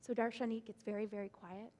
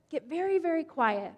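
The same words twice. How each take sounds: First: Quiet. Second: Said in the usual way. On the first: Acted. Narration hushes to match the words.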